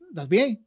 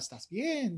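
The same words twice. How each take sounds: First: It is spoken quickly and casually. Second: It is spoken slowly and carefully. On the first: The speaker calls it wrong. "whoa, too fast" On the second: The speaker calls it right. "how you learn in your Spanish class"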